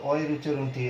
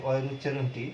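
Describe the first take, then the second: No difference in how they are said.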